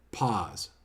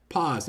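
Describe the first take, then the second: First: "pause." dropped low and soft, falling; announced technique. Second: Said in the usual way. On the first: Shown as a demonstration. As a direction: let "pause." sink low and quiet. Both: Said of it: "second technique".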